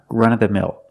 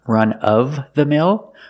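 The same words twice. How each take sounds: First: The v sound is dropped, giving 'runna'. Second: The v sound in 'of' is clearly pronounced. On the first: "usually you hear people say runna" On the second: "You can pronounce it with v"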